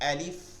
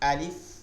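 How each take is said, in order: Both takes have the same delivery.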